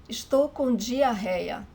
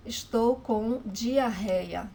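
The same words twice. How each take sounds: The two takes are said the same way.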